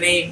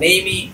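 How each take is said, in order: First: The word ends on the m consonant. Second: The word ends with an extra vowel sound. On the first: The speaker calls it right. "হবে নেম" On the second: The speaker calls it wrong. "না হয়"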